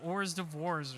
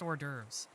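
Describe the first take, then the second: First: It is sounded out the way it is spelled. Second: It is said with the French pronunciation. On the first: The speaker calls it wrong. "It's not hors d'oeuvres or something" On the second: The speaker calls it right. "It's just hors d'oeuvres"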